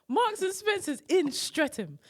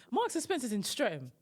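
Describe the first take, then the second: First: "Marks and Spencer's in Streatham" slower, higher, each word punched; emphatic call-out. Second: Said in the usual way. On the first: Real, not acted. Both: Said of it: "I'm gonna call you out".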